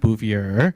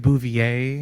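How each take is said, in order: First: The name is said in a local colloquial form. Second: The name is said in its standard form. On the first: This is how the speaker's family says it. The speaker calls it wrong. "not Bouvier. Bouvier is the local colloquialism" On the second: This is how the speaker goes by it. The speaker calls it right. "It's actually Bouvier"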